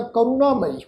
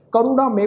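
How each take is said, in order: First: ਕਰੁਣਾਮਈ ending in -ma-ee; Hindi pronunciation. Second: ਕਰੁਣਾਮਏ ending in -ma-e; Gurbani pronunciation. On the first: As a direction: end ਕਰੁਣਾਮਈ on a long ee. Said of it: "Hindi ਵਿੱਚ ਸ਼ਬਦ ਉਚਾਰਨ ਕਰਦੇ". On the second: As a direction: end ਕਰੁਣਾਮਏ on an e sound. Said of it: "ਕਰੁਣਾਮਏ ਉਚਾਰਨ ਹੋਏਗਾ". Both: Shown as a demonstration.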